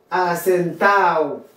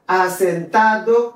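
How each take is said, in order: First: Asentado said "a-sen-TAO", falling; "asentado" with its D silent; dropped D. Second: Asentado slowly with "-TA-do" sounded, rising; "Asentado" ending in a distinct "-ado"; full D. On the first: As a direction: slide A into O in asentado, no D. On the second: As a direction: say Asentado in full, D clearly heard. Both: Shown as a demonstration. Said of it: "ou qu'à prononcer ou qu'à pas".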